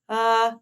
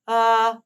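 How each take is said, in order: First: The vowel starts cleanly, neither breathy nor forced. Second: The vowel starts cleanly, neither breathy nor forced.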